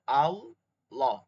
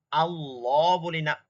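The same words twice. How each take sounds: First: আল্লাহ with a heavy, full l, slow. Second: আল্লাহ with a thin, light l, the wrong way. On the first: Teacher showing the heavy l in আল্লাহ. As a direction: say আল্লাহ with a thick l. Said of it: "মোটা করে পড়া". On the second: Teacher showing the wrong thin l in আল্লাহ. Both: Shown as a demonstration.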